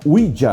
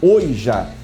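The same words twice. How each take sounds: First: The word is pronounced with English sounds. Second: The word is pronounced with Portuguese sounds. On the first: "Em inglês acho que se pronuncia Ouija" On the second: "em português Ouija"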